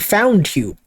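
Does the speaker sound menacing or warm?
menacing. It is said in a menacing, creepy tone. An obsessive person with a knife has caught someone. "Yandere, with a knife in her hand, saying"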